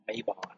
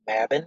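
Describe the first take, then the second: First: The word is said with a Southern drawl. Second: The word is said plainly, without a drawl. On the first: The speaker calls it wrong. "We put a drawl on it" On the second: The speaker calls it right. "which I think is the more correct way to say it"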